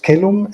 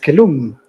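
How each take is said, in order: First: The stress is on the first syllable. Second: The stress is on the last syllable. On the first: The speaker calls it right. "It's already pronounced caelum in the fourth century" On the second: The speaker calls it wrong. "Migne prints the accent at the final syllable because he's a Frenchman"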